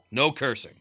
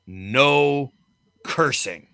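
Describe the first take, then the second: First: Said in the usual way. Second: No cursing, each word set apart and firm; mock stern warning. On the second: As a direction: lay down the rule like the boss did. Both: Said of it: "we're all explicitly told".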